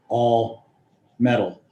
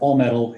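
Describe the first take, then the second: First: The two words are said as separate words. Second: The two words are joined into one compound. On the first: Any and all metal at all. The speaker calls it wrong. "instead of" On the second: A facade made entirely of metal. The speaker calls it right. "I look at that as one word"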